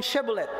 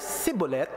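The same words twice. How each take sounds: First: Shebolet starting with a clear "sh"; Shebolet, "she" as first syllable; correct SH sound. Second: Sibolet starting with "s", no h; Sibolet, "si" as first syllable; Ephraimite S sound. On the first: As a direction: say Shebolet with a hushing SH. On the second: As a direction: say Sibolet with a plain S in place of SH. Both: Shown as a demonstration. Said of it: "Pag ang bigkas niya ay Sibolet".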